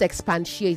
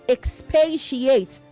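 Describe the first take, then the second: First: It is said with an added n sound. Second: It is said without an n sound. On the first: The speaker calls it wrong. "not expatiate. There is no N in that word" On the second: The speaker calls it right. "There is no N in that word"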